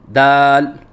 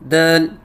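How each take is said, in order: First: The word is said slowly with a steady vowel. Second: The vowel is cut short with a closed mouth. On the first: The speaker calls it right. "लफ्ज़ दाल को बिल्कुल आहिस्ता बोलें" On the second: The speaker calls it wrong. "मुंह बंद करके कहते हैं"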